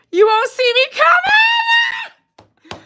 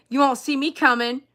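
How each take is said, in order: First: Very high, drawn-out playful shriek; squealed shout. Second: Said in the usual way. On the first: Acted. Streamer repeating her line to viewers, high drawn-out squeal. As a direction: stretch it out into a high squealing yell.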